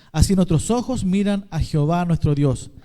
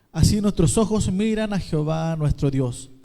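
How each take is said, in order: The two takes are said the same way.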